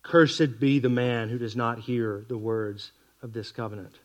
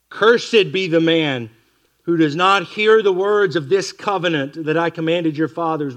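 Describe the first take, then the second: First: "Cursed" weighted at the start, slower, quieter and lower; stress on cursed. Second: Slow, louder proclaiming of the curse; solemn scripture reading. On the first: Shown as a demonstration. Preacher stressing the word "Cursed" to his listeners, slower and quieter. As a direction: lean on "Cursed", then let the line sink. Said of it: "the emphasis of the old covenant here falls on the curse". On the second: Acted. Preacher reading the curse to his congregation, slow and louder. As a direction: read the curse out like a pronouncement.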